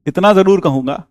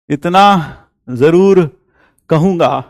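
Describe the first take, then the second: First: Said in the usual way. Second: इतना जरूर stretched out very slowly, each word weighed; slow emphasis. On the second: Shown as a demonstration. Teacher repeats his point to students, slowed right down.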